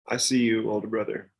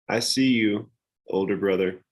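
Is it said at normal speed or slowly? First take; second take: normal speed; slowly. First: It is said at a normal pace. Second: It is said slowly.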